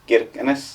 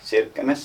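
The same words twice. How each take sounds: First: The name is said with a Finnish pronunciation. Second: The name is said with a Norwegian pronunciation. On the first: "many Finns would say just" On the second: "many Norwegians say like"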